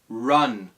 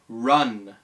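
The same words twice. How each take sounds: First: The R is a curled English R sound. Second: The same.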